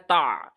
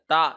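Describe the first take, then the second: First: It is said with a deep throat sound. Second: It is said with a light glottal catch. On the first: The speaker calls it right. "आइन और हल्क के दरमियान में पढ़ना है, ता इस तरह करने पढ़ना है" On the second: The speaker calls it wrong. "ता ऐसे नहीं पढ़ना, हमजा की तरह नहीं पढ़ना"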